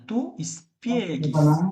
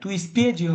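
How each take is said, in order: First: The g is hard, like a g sound. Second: The g is soft, like a j sound. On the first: The speaker calls it right. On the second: The speaker calls it wrong.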